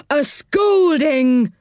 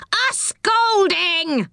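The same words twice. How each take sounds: First: High, very drawn-out indignant echo; indignant washerwoman. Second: Very high, drawn-out squawking roar; angry pixie roar. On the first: Washerwoman echoes the threat from below, indignant and drawn-out. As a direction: sing out each word slowly and high in indignation. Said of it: "said Dame Washalot's voice". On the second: Pixie echoes the threat from just behind, angry high roar. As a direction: roar it slowly at the top of the range. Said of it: "roared the angry pixie". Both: A narrator's reading.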